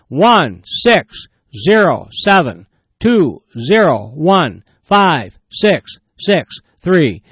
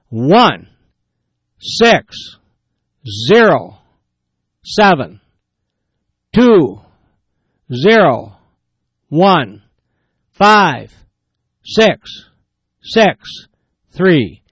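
First: The digits are read faster. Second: The digits are read slowly.

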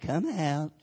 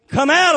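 First: It is said weakly, with doubt in the voice. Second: It is said firmly, with commanding authority. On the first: The speaker is unsure anything will happen. The speaker calls it wrong. "I wonder if you coming out" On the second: The speaker has full authority and expects obedience. The speaker calls it right. "I believe he said it just like that"

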